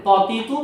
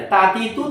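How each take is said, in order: First: "ত তি তু" with a heavy, full emphatic ta, kept apart from the thin তা. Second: "তা তি তু" with a light, thin, unrounded ta, tongue tip on the upper gum; thin ta sounds. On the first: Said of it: "mix না করে ফেলে". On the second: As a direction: say "তা তি তু" thin and light, not heavy. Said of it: "তা তি তু না বলে". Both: Shown as a demonstration.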